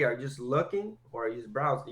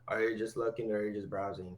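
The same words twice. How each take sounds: First: The question sounds lively and curious, with rising pitch. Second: The question sounds flat and uninterested, with level pitch. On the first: The asker is genuinely interested in the answer. The speaker calls it right. "kind of like that upswing" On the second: The asker is only going through the motions. The speaker calls it wrong. "not like"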